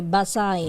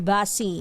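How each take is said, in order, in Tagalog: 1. Nagtatapos ang salita sa tunog na 'eye'. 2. Nagtatapos ang salita sa tunog na 'ee'. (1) "pronunciation pala nila doon ay Basay" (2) "Hindi Basi"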